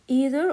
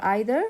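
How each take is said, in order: First: First vowel of "either" as a long ee, as in "see". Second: First vowel of "either" like the word "eye". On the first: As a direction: say "either" as EE-ther. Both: Shown as a demonstration. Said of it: "they have two pronunciation".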